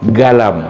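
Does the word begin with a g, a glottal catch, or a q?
g. The word begins with a hard g sound. This is how Saudi and Gulf speakers say it. "kalau Saudi qaf itu ga"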